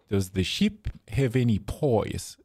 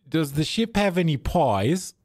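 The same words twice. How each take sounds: First: Slower, broad Australian "pies" like "poys"; mock Aussie question, falling at the end; Australian accent. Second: High, rising mock Australian question; broad Aussie accent, lifted in pitch. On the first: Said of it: "like that". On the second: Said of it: "You know, like that". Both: Shown as a demonstration.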